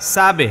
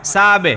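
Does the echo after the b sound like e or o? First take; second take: e; e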